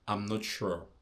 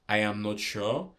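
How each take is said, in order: First: The first two words merge into one short syllable. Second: Every word is said fully and separately. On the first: "we often shorten words" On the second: "Instead of saying I am not sure"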